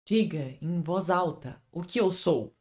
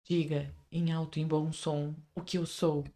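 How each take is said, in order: First: Soft, slow dramatic vampire line; Edward line. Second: Hushed, slow, softer dramatic line; Edward line. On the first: Quoting Edward to Bella, slow hushed drama. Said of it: "da Bella que o Eduardo fala". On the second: Cueing the friend as Edward, slow hushed drama. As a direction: breathe it out like a brooding vampire. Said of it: "agora eu vou falar minha fala". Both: Acted.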